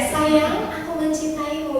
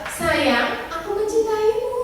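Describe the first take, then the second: First: It sounds like a sincere declaration of love. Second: It sounds doubtful, like a questioning remark.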